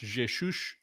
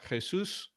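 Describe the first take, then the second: First: It is said with a Portuguese pronunciation. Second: It is said with a Spanish pronunciation. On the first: "is pronounced Jesus in Portuguese" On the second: "Jesus in Spanish"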